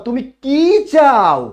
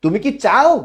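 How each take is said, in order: First: তুমি কি চাও slow, higher and louder, চাও falling at the end; slow, emphatic তুমি কি চাও with a falling চাও; information question tune. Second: তুমি কি চাও asked with চাও rising at the end; rising tune on চাও as a plain yes-no ask; yes-no question tune. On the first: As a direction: stretch it out and drop চাও, asking what exactly. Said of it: "আর যখন আমি বললাম". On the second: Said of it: "উচ্চারণটা কি হবে?". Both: Shown as a demonstration.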